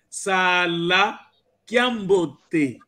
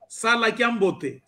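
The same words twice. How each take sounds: First: The first vowel of sala is long. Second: The first vowel of sala is short. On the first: It is a farewell wish to someone leaving. The speaker calls it right. "Aqui nós dissemos Sala Kiambote" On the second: It means something else. The speaker calls it wrong. "se não existir aquele outro A, vai significar outra coisa"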